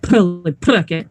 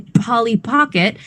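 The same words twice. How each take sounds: First: The P sounds are made with lips folded inward. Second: The P sounds are made with normal lip pressure. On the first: "we don't fold our lips in. Yeah, not like this" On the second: "the same way I say Polly Pocket"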